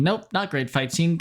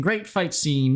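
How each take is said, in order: First: Flat "Nope, not great fight scene" taking the praise back; deadpan retraction of the earlier praise; dry self-correction. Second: Said in the usual way. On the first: Shown as a demonstration. Vlogger correcting her own praise of the fight, deadpan.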